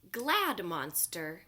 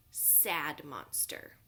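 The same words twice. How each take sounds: First: Glad said slow and bright, louder; cheerful stress on Glad. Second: Sad said slow and low, falling; mopey Sad. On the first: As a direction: stretch out Glad happily. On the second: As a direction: let Sad droop down slowly. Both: Shown as a demonstration. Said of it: "Glad is another word for happy".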